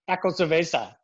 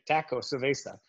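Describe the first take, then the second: First: "Taco cerveza" in a playful, lightly put-on Mexican Spanish accent with rolled vowels; mock Mexican accent. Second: Said in the usual way. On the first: Shown as a demonstration. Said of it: "You sounded Mexican right there". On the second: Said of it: "Just say taco cerveza".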